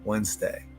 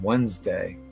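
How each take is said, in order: First: The D is silent, like 'wenz-day'. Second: The same.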